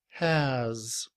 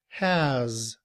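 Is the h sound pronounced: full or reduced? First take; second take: full; full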